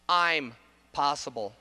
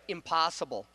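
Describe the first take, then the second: First: The first vowel is long, as in 'I'm'. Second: The first vowel is short, as in 'im'. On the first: The speaker is capable of it. The speaker calls it right. "that word is actually pronounced I'm possible" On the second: Something cannot be done. The speaker calls it wrong. "that word has been mispronounced for all of time"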